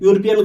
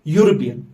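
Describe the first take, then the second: First: The word begins with a plain vowel sound. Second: The word begins with a consonant y sound. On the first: The speaker calls it wrong. "यूरोपियन गलत है" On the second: The speaker calls it right. "हम पढ़ते हैं यूरोपियन। The correct pronunciation is यूरोपियन। तो ये यो निकलती है"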